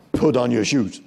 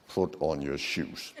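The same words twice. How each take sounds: First: Loud, direct order; firm demand. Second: Low, slow, soft through tight jaws; quiet menace with the jaws pressed together; calm but aggressive. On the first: Staff walking up to place a demand, loud firm order. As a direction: give a command straight at the person. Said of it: "when we place demands, we normally do like this". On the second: Staff claiming to be calm, low slow tight-jawed order. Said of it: "I said like this". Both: Shown as a demonstration.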